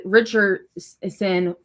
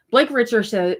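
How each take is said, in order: First: Richardson stretched out very slowly; drawn-out emphasis. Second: Said in the usual way. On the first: Real, not acted. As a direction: savor the name Richardson, slowly. Repeats name, drawn out for emphasis.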